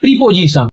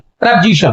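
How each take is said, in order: First: The first vowel is a long 'ee' sound. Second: The first vowel is a short 'uh' sound. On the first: The speaker calls it wrong. "इसका pronunciation ज्यादातर लोग गलत करते हैं" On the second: The speaker calls it right. "प्रीपोजिशन न होकर के प्रपोजिशन है"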